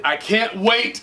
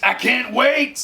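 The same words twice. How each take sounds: First: Eager, lifting at the end; bubbling with anticipation; excited. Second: Much higher, slower, gleeful; extra excited. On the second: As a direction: push the excitement further up. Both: Real, not acted. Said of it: "so excited".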